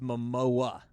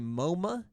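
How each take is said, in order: First: The name ends in 'o-a' with no extra 'm'. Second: The name is said with two syllables, no final 'a'. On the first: The speaker calls it right. "It's Momoa" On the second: The speaker calls it wrong. "you either say Moma"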